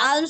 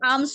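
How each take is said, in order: First: The word is said with an audible L sound. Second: The word is said without any L sound. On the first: The speaker calls it wrong. "আলমস হবে নাকি আমস হবে উচ্চারণ?" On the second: The speaker calls it right. "আমস আমস।"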